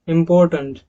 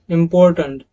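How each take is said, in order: No difference in how they are said.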